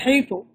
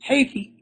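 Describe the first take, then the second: First: The word ends with an u vowel. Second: The word ends with an i vowel. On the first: One group of Arabs says it this way. "they say haythu" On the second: Another group of Arabs says it this way. "some Arabs say haythi"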